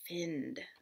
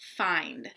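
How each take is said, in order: First: The vowel is said as a short sound. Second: The vowel is said as a long sound. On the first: The speaker calls it wrong. "the short first ... Find doesn't sound right" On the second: The speaker calls it right. "flip the vowel sound"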